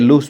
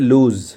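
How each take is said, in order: First: The word ends with a hissing s sound. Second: The word ends with a buzzing z sound. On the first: The speaker calls it wrong. "এটা অনেকে লুজ বলেন" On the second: The speaker calls it right. "কিন্তু এটা হলো আসলে লুজ।"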